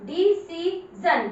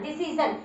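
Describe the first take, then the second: First: डिसीजन stretched slowly, syllable by syllable; slow demo reading. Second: Said in the usual way. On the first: Shown as a demonstration. Teacher demonstrating to class, very slow. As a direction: read डिसीजन out slowly for pupils. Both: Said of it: "कितनी आराम से पढ़ रहे हो".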